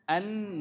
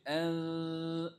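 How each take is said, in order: First: The n is pronounced fully and clearly. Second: The n is hidden in a nasal sound. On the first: The speaker calls it wrong. "no. If you say an, that is not ikhfa, that is actually izhar" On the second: The speaker calls it right. "The sound is this way"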